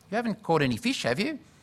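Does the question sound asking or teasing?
asking. The question sounds like a gentle, sincere request. The speaker is asking to be given some fish. "Or maybe he said it differently. In other words, can you give me some fish?"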